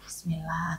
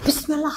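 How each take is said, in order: First: It is said flatly, with little energy. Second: It is said with lively, spirited energy. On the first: The speaker calls it wrong. "enggak kayak Bismillah" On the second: The speaker calls it right. "tapi Bismillah semangat"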